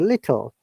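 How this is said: The t sound is clearly pronounced. "in R P accent, standard British"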